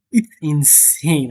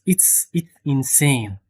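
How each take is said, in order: First: Said in the usual way. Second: Hushed whisper of disbelief; unvoiced awe-struck whisper. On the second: Real, not acted. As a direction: breathe it out in an awed whisper. Awed repeat to viewers, hushed.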